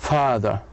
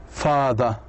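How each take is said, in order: No difference in how they are said.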